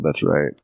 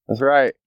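First: Said in the usual way. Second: Yelling. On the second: Real, not acted. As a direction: shout it to a passerby. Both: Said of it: "I just yelled".

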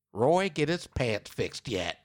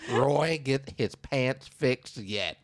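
First: Slow and flat, no question lift on Roy get his pants fixed yet; flat statement. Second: Very slow deadpan with a falling end on Roy get his pants fixed yet; flat statement. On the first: Host stresses that the postcard has no question mark, falling flat. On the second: Host repeats the odd last line for emphasis, deadpan. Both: Shown as a demonstration. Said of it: "Not a question mark".

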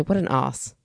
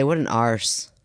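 First: "os" R-less, open o, Aussie accent; Australian accent, "What an os"; Australian accent dropping the R in "os". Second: "arse" with the R sounded; Aussie arse with the R. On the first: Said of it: "No, they say". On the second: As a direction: say "What an arse" rhotic. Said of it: "So they just say". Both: Shown as a demonstration.

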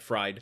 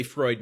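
First: "Fried" for Freud, rhyming with "side"; wrong vowel in "Fried", like the word for cooked in oil; mispronounced Freud. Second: Said in the usual way. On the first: Shown as a demonstration. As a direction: say "Fried" with a long i in place of the oy. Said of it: "He did say Freud". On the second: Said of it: "not Fried".

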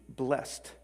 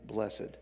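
First: Blessed said as one syllable, blest; blessed rhymes with dressed, no second syllable. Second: Blessed said in two syllables, bless-ed; blessed with a clear second syllable, bless-ed. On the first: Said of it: "It's used as one syllable". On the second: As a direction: draw blessed out slowly as bless-ed. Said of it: "it is pronounced with two syllables". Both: Shown as a demonstration.

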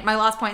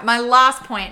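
First: Said in the usual way. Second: Louder, falling call for the last point; emphatic announcement. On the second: Real, not acted. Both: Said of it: "Okay, all right".

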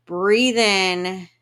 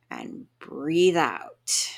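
First: Big, loud inhale cue; loud noisy breath in. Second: Slow, drawn-out exhale cue; slow breathe out. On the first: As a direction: breathe in loudly, noisily. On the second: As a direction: stretch it out, slowly. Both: Shown as a demonstration. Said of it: "Make the noisiest, loudest".

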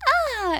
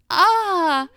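First: Put-on very high, girlish copycat "ah"; mock girl-voice cry. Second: High, loud retold "ah"; girl's startled cry. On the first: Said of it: "in a girl voice". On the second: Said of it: "And then she goes".

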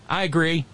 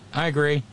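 The two takes are said the same way.

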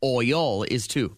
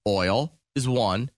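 First: "Oil" split into two syllables, OY-yul. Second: "Oil" said as one syllable; "Oil" as one smooth glide, no break. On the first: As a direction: say "Oil" as two drawn-out beats. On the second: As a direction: run "Oil" together into a single beat. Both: Shown as a demonstration.

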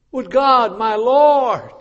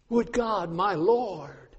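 First: Loud plea. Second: Soft plea. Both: Shown as a demonstration. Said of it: "repeated phrase".

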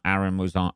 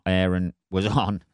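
First: "Aaron" with a short open a, as in "arrow"; first pronunciation of Aaron. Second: "Aaron" starting like "air"; "Aaron" said with an airy first vowel, as in "air"; second pronunciation of Aaron. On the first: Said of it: "I always get that fucking name mixed up". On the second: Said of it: "Aaron and Aaron". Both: Real, not acted.

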